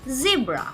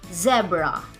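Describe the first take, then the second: First: It is said with an American pronunciation. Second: It is said with a British pronunciation. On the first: "American people pronounce it as zebra" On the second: "British people pronounce it as zebra"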